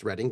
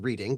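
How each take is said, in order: First: It is said the local, non-spelling way. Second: It is said the way it is spelled. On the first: "but pronounced Reading" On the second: "spelled Reading"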